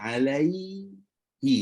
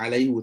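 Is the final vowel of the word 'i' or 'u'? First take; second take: i; u. First: The word ends with a 'hi' sound. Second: The word ends with a 'hu' sound. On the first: It follows how Arabs naturally speak. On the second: It follows the strict original rule. "Kalau ikut kaedah yang paling betul adalah alaihu"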